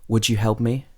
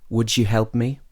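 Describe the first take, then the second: No difference in how they are said.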